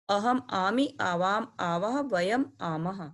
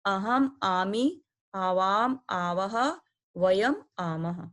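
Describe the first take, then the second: First: Said in the usual way. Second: Each pair of words drawn out slowly for students to repeat; slow recitation drill. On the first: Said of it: "तो इस तरह आप याद कर लेंगे". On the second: Shown as a demonstration. Teacher reading the pronoun endings aloud for pupils, slow and deliberate. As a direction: spell out अहम आमी, आवाम आवह, वयम आमह word by word, very slowly. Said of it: "तो आप इसको पढ़िए आमी".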